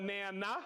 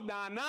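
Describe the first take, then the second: First: Nana as NAN-uh, A as in "nap"; mistaken pronunciation. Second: Nana as NAH-nah, open A; corrected pronunciation. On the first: Shown as a demonstration. Host contrasting his mistake, Nana said as NAN-uh. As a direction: say Nana with the short A of "man". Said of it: "not Nana". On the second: Real, not acted. Host repeating a listener's correction, Nana said as NAH-nah. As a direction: say Nana with "ah" in both syllables. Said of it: "It's Nana".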